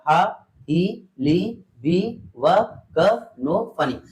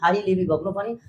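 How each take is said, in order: First: It is said very slowly, syllable by syllable. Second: It is said quickly, syllables running together.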